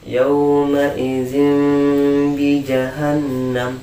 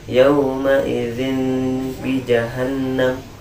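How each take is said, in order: First: The ending becomes a long, nasalized m sound. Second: The ending stays a clear n sound. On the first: The speaker calls it right. "Disama-samarkan sedikit, didengungkan juga eh, selama ada harokat" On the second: The speaker calls it wrong. "tidak diganti jadi mim ya. Dijelaskan tanwinnya sama baknya"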